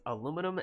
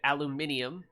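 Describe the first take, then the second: First: It is said with the American pronunciation. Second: It is said with the British pronunciation. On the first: "American English" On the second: "British English pronunciation"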